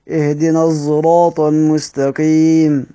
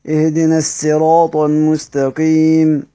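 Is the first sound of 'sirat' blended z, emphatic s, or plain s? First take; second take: blended z; plain s. First: The word begins with s blended toward z. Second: The word begins with a plain s sound. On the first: "انتهيت بالاشمام" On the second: "بالسين"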